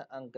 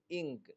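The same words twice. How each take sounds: First: अंक with an uh sound; wrong uh vowel. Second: इंक with a short i; short-i vowel. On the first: Teacher warning against a misreading, अंक with uh. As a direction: say अंक with uh instead of i. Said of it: "अंक नहीं". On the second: Teacher reading out "ink" for learners, इंक with short i. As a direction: say इंक with i, not uh. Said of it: "आई का तलफ़ुज़ ई से". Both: Shown as a demonstration.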